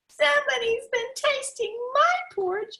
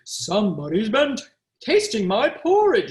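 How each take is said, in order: First: It is said in a small, high voice. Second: It is said in a big, deep voice. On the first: The smallest bear is speaking. "cried the little wee bear in his little wee voice" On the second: The largest bear is speaking. "said the great big bear in his great big voice"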